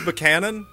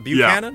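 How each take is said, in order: First: The first syllable sounds like 'buck'. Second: The first syllable sounds like 'byoo'. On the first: The speaker calls it right. "So is it James Buchanan" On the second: The speaker calls it wrong. "not Buchanan?"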